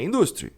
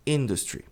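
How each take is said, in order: First: INDUSTRY mispronounced with the stress on DUS; INDUSTRY, middle syllable punched; wrong stress on industry. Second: INDUSTRY with stress on the first syllable; INDUSTRY, front-stressed; correct English industry. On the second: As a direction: say "industry" the English way, IN-dus-tree. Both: Shown as a demonstration. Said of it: "E não é industry".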